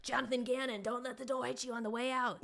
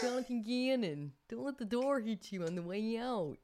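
First: High, put-on Philadelphia accent that slips toward Boston; mock Philly fan accent. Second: High put-on Philadelphia accent, more committed; second go at the Philly fan voice; Philly accent retry. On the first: Eagles fan jeering the departing coordinator, in a bad Philly accent. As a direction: ham up a Philly fan sending off Gannon. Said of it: "That was not an Eagles accent or Philadelphia accent". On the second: Retaking the Gannon send-off in a fuller Philly accent. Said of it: "Nailed it".

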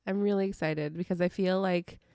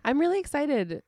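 First: Said in the usual way. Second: Excited. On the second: Real, not acted.

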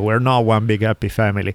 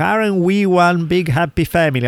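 First: Said in the usual way. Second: Higher-pitched mock family cheer; forced togetherness. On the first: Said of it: "I'm like, "No, motherfucker". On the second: Mocking forced gatherings where relatives pretend closeness, falsely chummy and high. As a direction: imitate fake chumminess, pitched up. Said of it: "I hate when they feel forced".

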